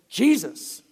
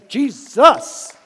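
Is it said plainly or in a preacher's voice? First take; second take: plainly; preacher's voice. First: It is said in a plain, ordinary voice. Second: It is said in a preacher's dramatic voice.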